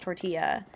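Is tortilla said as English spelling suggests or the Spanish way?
Spanish way. It is pronounced the Spanish way. The speaker calls it right. "We know it's tortilla"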